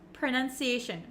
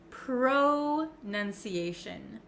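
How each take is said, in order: First: The first syllable has a short 'uh' vowel. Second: The first syllable has a full 'oh' vowel. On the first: The speaker calls it right. "pronounced like a U, like an uh, uh sound. Pr, pr. And it's very short" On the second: The speaker calls it wrong. "It looks like you could pronounce it pro"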